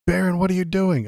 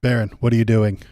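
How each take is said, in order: First: Much higher, louder exclamation; high, startled cry of discovery; high-pitched character voice. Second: Loud, firm demand near normal pitch; loud reprimand from a disapproving dad; stern father voice. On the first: Someone catching Barron mid-kiss, high-pitched shocked character voice. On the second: Trump catching his son kissing, loud stern father. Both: Acted. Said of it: "so I know what, uh, voice to do".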